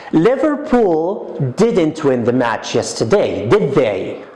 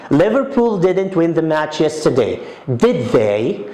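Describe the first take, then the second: First: "did they" falling; confirming tag. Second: "did they" ending with a rise; confirming tag. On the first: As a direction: check the fact, tag dropping. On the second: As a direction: ask to confirm, lift at the end. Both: Shown as a demonstration. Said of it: "I want to confirm".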